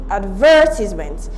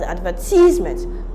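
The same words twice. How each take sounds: First: The stress is on the second syllable. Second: The stress is on the third syllable. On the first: The speaker calls it right. "the stress is placed on the second syllable" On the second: The speaker calls it wrong. "stressing it in the wrong syllable"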